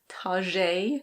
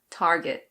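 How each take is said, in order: First: It is said in a mock French style. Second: It is said in American English with the R. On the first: "that makes it sound a little bit more sophisticated" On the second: "In American English, you pronounce the R, so it's Target"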